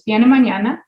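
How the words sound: The voice rises at the end.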